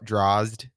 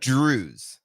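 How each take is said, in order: First: It ends in a 'zd' cluster. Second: It has an 'ooh' vowel and ends in 'z'. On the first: The speaker calls it wrong. "the way people mispronounce it" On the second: The speaker calls it right. "according to my dad"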